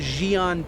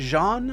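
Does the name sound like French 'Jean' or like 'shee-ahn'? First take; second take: shee-ahn; Jean. First: The name is said as shee-ahn. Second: The name is said like French Jean. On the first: The speaker calls it right. "I like calling them Xi'an" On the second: The speaker calls it wrong. "they pronounce it like Jean"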